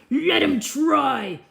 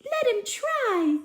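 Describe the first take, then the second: First: A firm, slowed order from the princess; commanding princess. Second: Much higher, bossy princess command. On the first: Princess commanding the trousers be tried. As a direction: give the command slowly and firmly. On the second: Teacher rereads the princess ordering Cinder to try. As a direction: squeak the order up high like the princess. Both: Acted. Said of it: "can I reread that part?".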